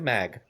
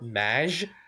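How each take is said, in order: First: It ends with a hard g sound. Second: It ends with a soft j sound. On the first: The speaker calls it right. "I'm gonna stick to mag" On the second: The speaker calls it wrong. "it's in the short maj, it doesn't sound right"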